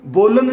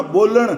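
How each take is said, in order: First: ਬੋਲਣ said with a plain dental n at the end, as bolan; the wrong way, ਬੋਲਣ with ਨ; wrong pronunciation. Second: ਬੋਲਣ said with the retroflex ਣ at the end, as boləɳ; the correct ਬੋਲਣ with ਣ; right pronunciation. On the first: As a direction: demonstrate the mistake: ਬੋਲਣ ending on ਨ, not ਣ. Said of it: "ਨੰਨਾ ਨਹੀਂ ਬਣ ਦੇਣਾ". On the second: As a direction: demonstrate the right way: ਬੋਲਣ ending on ਣ, tongue curled back. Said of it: "ਨਾਣਾ ਹੀ ਬੋਲਣਾ". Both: Shown as a demonstration.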